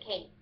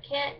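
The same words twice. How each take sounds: First: "can't" rhyming with paint; Kentucky cain't. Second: Said in the usual way. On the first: Shown as a demonstration. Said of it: "you would replace it with". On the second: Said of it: "instead of can't".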